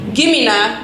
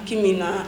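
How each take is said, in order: First: It is said in a harsh, aggressive tone. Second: It is said in a gentle, non-aggressive tone. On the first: The speaker is demanding it forcefully. The speaker calls it wrong. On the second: The speaker is politely asking for it. The speaker calls it right.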